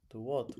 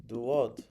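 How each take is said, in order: First: Said in the usual way. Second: Loud, surprised do what; puzzled. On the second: Real, not acted. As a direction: snap it back in confusion.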